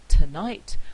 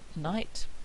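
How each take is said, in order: First: The first weak vowel is pronounced. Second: The first weak vowel is dropped. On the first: "instead of saying tonight" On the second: "a weak vowel plus one of these consonants becoming syllabic"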